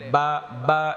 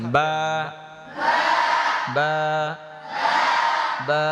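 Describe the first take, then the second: First: The lips meet only at their dry outer part. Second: The moist inner lips press together, then release. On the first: The speaker calls it wrong. "অনেকে বাটা পড়ার সময় ভুল করে ফেলে বা বা এমনি বলে" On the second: The speaker calls it right. "ঠোঁটের ভিজা অংশ থেকে এই যে বা ঠোঁট মিশাবেন আর ছাড়বেন"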